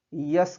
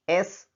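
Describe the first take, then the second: First: S mispronounced "यस", with a y-glide in front; "यस" opening on a y sound; mistaken letter S. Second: S said "एस", opening on a plain e vowel; "एस" with a clean vowel onset; correct letter S. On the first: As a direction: say "यस" like the English word yes. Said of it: "इसका उच्चारण या pronunciation गलती से". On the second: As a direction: start "एस" straight on the vowel, no y-glide. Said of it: "उच्चारण एस हो रहा है". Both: Shown as a demonstration.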